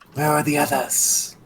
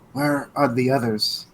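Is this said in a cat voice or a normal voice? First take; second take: cat voice; normal voice. First: It is said in a put-on cat voice. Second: It is said in the speaker's normal voice. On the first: "then I'll talk like the cat again" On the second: "That's why I wasn't doing the voice I've been doing"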